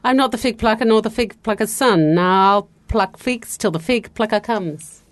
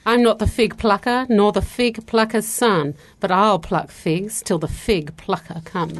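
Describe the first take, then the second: First: It is said at a faster pace. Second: It is said at a slower pace.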